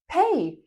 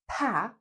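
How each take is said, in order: First: The vowel sounds like 'ay'. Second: The vowel sounds like 'ah'. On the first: The speaker calls it right. "it's pay, like you pay money" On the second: The speaker calls it wrong. "the pronunciation is not pa"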